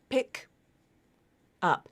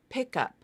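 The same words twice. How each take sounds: First: The two words are said with a break between. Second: The two words run together like one word. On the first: The speaker calls it wrong. "It's not pick up" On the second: The speaker calls it right. "when this phrase is linked, it sounds closer to"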